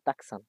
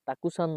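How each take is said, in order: First: The vowel between k and s is dropped. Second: The vowel between k and s is clearly voiced. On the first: The speaker calls it right. "এটার উচ্চারণ হবে তাকসান" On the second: The speaker calls it wrong. "অনেকে উচ্চারণ করবেন তাকুসান, বাট তাকুসান না"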